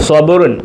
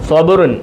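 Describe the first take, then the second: No difference in how they are said.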